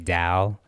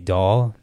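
First: The word is said in a Michigan accent. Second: The word is said in a plain accent.

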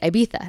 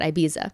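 First: It is pronounced the Spanish way. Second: It is pronounced the English way. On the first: The speaker calls it right. "that's how you actually say it in Spanish" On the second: The speaker calls it wrong. "not Ibiza"

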